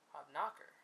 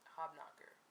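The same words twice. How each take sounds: First: The stress falls on a different syllable. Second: The stress falls where most versions put it.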